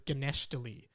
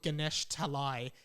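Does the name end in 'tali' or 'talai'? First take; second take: tali; talai. First: The name ends with the short sound 'tali'. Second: The name ends with the longer sound 'talai'. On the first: This is how a small child misremembered the name. The speaker calls it wrong. "he was pronouncing it as Ganeshtali" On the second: This is the real name of the town. The speaker calls it right. "it's actually called Ganesh Talai"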